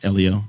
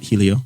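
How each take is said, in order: First: The name begins with a vowel, no H sound. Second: The name begins with an audible H sound. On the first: The speaker calls it right. "common pronunciation of Elio" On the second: The speaker calls it wrong. "not Helio"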